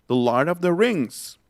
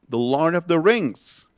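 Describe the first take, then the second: Both takes have the same delivery.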